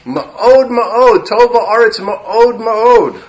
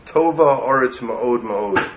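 First: Ma'od Ma'od punched high and loud, slow; Ma'od Ma'od sung out louder and higher, slowly; emphatic ma'od. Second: Said in the usual way. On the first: Shown as a demonstration. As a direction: lean hard on each Ma'od, stretched out. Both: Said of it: "We have to change the song".

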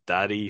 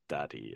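First: Said in the usual way. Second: Low, hushed murmur; quiet whisper. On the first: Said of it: "spotting her dad". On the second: Retold or imitated. Girl nuzzling into her new father figure, whispering quietly. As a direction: drop it low and very soft. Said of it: "she whispers quietly".

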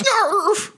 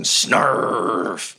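First: Short, very high-pitched creature yelp; imitated little beast attacking, quick and squeaky; sudden squealed snarl; high animal snarl. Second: Long, stretched creature growl-word, falling; imitated beast biting, held slowly; one extended snarl noise; drawn-out animal snarl. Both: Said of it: "Goblin Junior goes".

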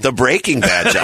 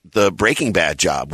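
First: Bad hit higher than Breaking, with a laugh; stress moved to Bad. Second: Breaking leaned on, Bad falling away after it; stress on Breaking. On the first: Shown as a demonstration. Correcting himself for his teasing partner, stress on Bad. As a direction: laughingly punch the word Bad. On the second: Real, not acted. Telling when he got the job, stress on Breaking. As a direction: put the weight on Breaking rather than Bad. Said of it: "did you put the emphasis on breaking".

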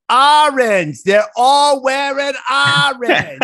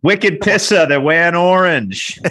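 First: High, loud mock server shout; imitating the server. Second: Put-on loud, high Boston accent. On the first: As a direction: belt it out high like the excited waitress. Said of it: "Like that". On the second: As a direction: ham up a thick Boston accent. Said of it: "you should do it in a good Boston accent for us".

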